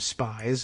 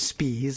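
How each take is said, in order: First: The vowel sounds like 'eye'. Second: The vowel sounds like 'ee'. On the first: The speaker calls it wrong. "every substitute teacher uh, calling her by the last name Spies" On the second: The speaker calls it right. "we all knew it was Spees"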